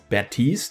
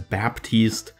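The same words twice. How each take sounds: First: The name is said without a P sound. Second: The name is said with a P sound. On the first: "pronounced without the P as" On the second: "it will be pronounced as"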